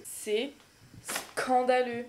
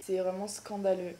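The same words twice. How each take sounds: First: "scandaleux" drawn out very slowly after a pause; pause, then stretch out "scandaleux"; stress on scandaleux. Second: Said in the usual way. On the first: Shown as a demonstration. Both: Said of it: "Mais quand je dis c'est scandaleux".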